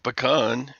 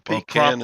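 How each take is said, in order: First: The first syllable sounds like 'puh'. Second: The first syllable sounds like 'pee'. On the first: A nut that grows on a tree. "something that you get off of your tree" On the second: A pot kept by the bed to urinate in. "that thing you put by your bed to pee in"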